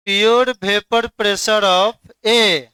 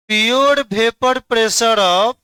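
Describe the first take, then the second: First: Each word drawn out very slowly, settling down on "A"; slow teacher answer that lands firmly; slow completed statement. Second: Each word drawn out very slowly, ending up on "of"; slow teacher prompt, rising to invite an answer; slow prompting rise. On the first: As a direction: stretch "pure vapor pressure of A" slowly and close it with a falling tune. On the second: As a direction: stretch "pure vapor pressure of" slowly and leave it hanging upward for students to finish. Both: Shown as a demonstration.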